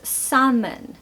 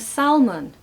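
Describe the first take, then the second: First: The L sound is silent in the word. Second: The L sound is pronounced in the word. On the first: The speaker calls it right. "It's salmon" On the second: The speaker calls it wrong. "How many people are saying salmon?"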